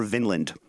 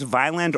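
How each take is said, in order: First: "Vinland" with first syllable like "vin"; short I pronunciation. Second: "Vineland" with first syllable like "vine"; long I pronunciation. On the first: Host asking how the town is pronounced, "Vinland" with short I. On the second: Host asking how the town is pronounced, "Vineland" with long I. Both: Shown as a demonstration. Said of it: "is it pronounced Vineland or Vinland".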